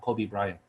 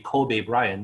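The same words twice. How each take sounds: First: Kobe is pronounced the usual American way. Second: Kobe is pronounced like the Japanese city name. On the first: The speaker calls it wrong. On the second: The speaker calls it right. "the correct pronunciation is supposed to be"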